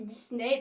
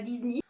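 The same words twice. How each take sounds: First: The name ends with an 'ay' vowel sound. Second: The name ends with an 'ee' vowel sound. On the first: This is how it is commonly said in French. "on dit Disney" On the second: This follows the English rule for the ending. "et pas Disney"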